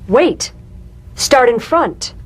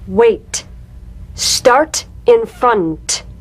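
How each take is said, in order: First: It is said naturally, focused on the meaning. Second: It is said slowly with exaggerated tapped sounds.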